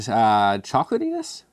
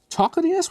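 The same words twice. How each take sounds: First: Said in the usual way. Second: Much higher, questioning his own odd word; incredulous. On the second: Real, not acted. Reviewer doubting his word chocolatiness, mock surprised and much higher. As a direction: squeak it back in mock disbelief.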